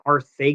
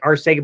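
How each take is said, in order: First: The middle consonant sounds like th. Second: The middle consonant sounds like s. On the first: This is how the name's owner says it. "that weird pronunciation he has" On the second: This is how the spelling suggests it is said. "it's spelled out like Arcega"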